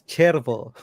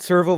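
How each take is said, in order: First: The word begins with a ch sound. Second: The word begins with an s sound. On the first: The speaker calls it right. "It's Cervo" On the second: The speaker calls it wrong. "It's not Servo Volante. Don't don't tell people Servo"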